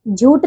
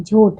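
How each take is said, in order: First: झूठ ending in unaspirated ट: jhoot; mispronunciation. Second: झूठ ending in aspirated ठ, pitched low; correct pronunciation. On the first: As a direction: drop the puff at the end of झूठ. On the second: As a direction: puff the final th of झूठ. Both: Shown as a demonstration. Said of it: "झूठ नहीं".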